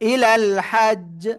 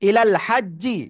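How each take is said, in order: First: The last word ends on the consonant, no vowel. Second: The last word ends with a short i vowel. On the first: The speaker calls it right. "আপনার বলতে হবে কি" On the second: The speaker calls it wrong. "এটা না বলে"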